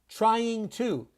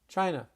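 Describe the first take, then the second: First: Both words are pronounced fully and separately. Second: The words are squeezed into one reduced word.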